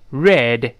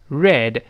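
Both takes have the same delivery.

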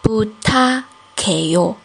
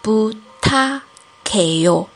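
No difference in how they are said.

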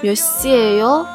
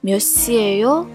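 First: It sounds anxious and hurried, like someone late. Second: It sounds exasperated, like a fed-up teacher.

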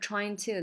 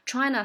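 First: The two words are said fully and separately. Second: The two words blend into one reduced form.

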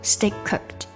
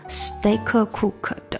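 First: The k of steak is dropped into cooked. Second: The k of steak is clearly released. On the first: The speaker calls it right. "你可以把它连没有steak cooked" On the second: The speaker calls it wrong. "也不能把它说成steak cooked"

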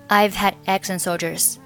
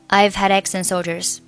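First: The final d of had is dropped, nothing linked. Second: Had, eggs and and run together as one chunk. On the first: "如果你要选择had 末尾的不发音，就是" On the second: "如果你要选择had eggs and 三个单词连读，那就读成"

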